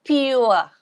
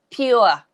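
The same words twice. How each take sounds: The two takes are said the same way.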